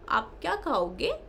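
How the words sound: It is said in a cooing baby-talk voice. The speaker calls it wrong. "ये जो हम बात करते हैं बच्चे से, हमें नहीं करना है ये।"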